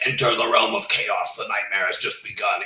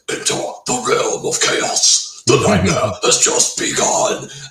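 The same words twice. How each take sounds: First: The line is spoken in a plain, ordinary voice. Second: The line is growled in a harsh metal voice. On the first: The speaker calls it wrong. "I'm glad it's that and not like" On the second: The speaker calls it right. "on the title track, it's like"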